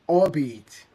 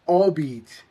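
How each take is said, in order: Both takes have the same delivery.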